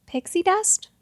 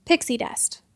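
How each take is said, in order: First: Higher, puzzled question rising at the end; puzzled echo. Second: Said in the usual way. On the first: Acted. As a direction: repeat it back, baffled. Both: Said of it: "said Quincy".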